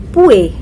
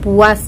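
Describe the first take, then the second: First: The word ends with an e sound. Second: The word ends with an as sound.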